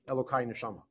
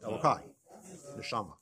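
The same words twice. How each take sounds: First: The two words run together without a pause. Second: There is a pause after the first word. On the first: The words are heard as one title. The speaker calls it wrong. "It's not" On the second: The first word is a separate address, my God. The speaker calls it right. "it's a question of punctuating it correctly"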